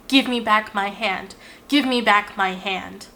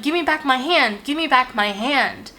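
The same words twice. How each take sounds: First: Measured echo at normal pitch, not shouted; echoed mock yell. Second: Mock yell. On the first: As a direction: lightly imitate mother echoing the demand back. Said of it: "yells back in a version of my voice". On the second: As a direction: imitate a mild, urgent yell without full volume. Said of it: "yells that same sentence back at me".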